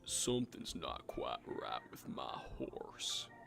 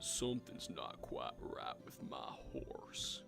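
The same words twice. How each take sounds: First: The line is said very loudly. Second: The line is said loudly.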